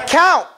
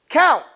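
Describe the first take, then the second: No difference in how they are said.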